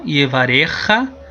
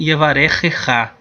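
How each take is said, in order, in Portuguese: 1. A sílaba 'cha' é ouvida apenas uma vez. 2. A sílaba 'cha' é ouvida duas vezes. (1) "como se fosse uma, um som só" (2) "a gente pode pronunciar também"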